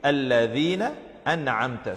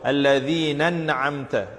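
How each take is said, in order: First: The two words are kept clearly separate. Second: The two words are run together as one. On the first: The speaker calls it right. "The right way to read it" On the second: The speaker calls it wrong. "they read it uh, like reading one word"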